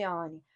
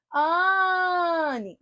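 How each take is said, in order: First: Said in the usual way. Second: "Anne" called higher with the first syllable held long; calling out. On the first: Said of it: "Qual é a sílaba tônica de Anne". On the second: Shown as a demonstration. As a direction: stretch the AN of "Anne" as if calling someone. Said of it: "A sílaba que se alonga".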